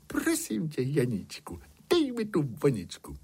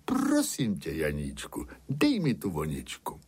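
First: High-pitched princess plea; storyteller's princess, politely begging in a high voice; princess asking nicely. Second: Lightly voiced shepherd dictating a polite request; understated plea in the narrator's own register; shepherd demonstrating a plea. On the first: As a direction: start the please high, then ease down. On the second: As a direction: show how to ask nicely, dropping low on the name. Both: A narrator's reading. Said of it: "musí o ni pěkně poprosit".

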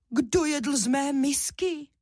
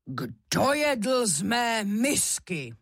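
First: Higher, lighter bear voice; mama bear's shout. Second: Slow, strong papa bear voice; big bear demanding, drawn out and forceful; bear's roar. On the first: Mama bear finding her bowl used, high indignant shout. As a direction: cry out in a high mama bear voice, less mighty. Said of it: "zakřičela ... přece jen méně hlasitě". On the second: Papa bear finding his bowl used, roaring slowly. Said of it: "zařval silným medvědím hlasem". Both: A narrator's reading.

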